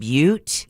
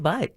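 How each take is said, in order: First: The vowel is a long 'you' sound, 'byoot'. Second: The vowel is a short 'uh' sound, 'butt'. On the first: The speaker calls it right. "a long U as in Butte" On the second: The speaker calls it wrong. "So I went on the air with"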